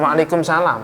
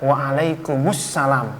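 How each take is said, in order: First: No 'us' sound comes before 'salam'. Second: An 'us' sound comes before 'salam'. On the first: The speaker calls it wrong. "bukan ya" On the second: The speaker calls it right. "Saya jawabnya"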